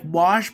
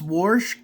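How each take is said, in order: First: The word is said in a standard accent. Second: The word is said with a country accent.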